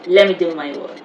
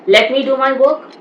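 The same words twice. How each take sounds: First: 'Let me' is reduced to 'lemme'. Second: 'Let me' is said in full. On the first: The speaker calls it right. "Let me becomes let me" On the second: The speaker calls it wrong.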